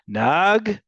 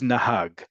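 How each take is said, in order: First: The h is dropped, leaving a jarring pause. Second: The h sound in the middle is heard. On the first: "the hey basically goes silent and it's just sort of a pause" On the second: "The word is nahag"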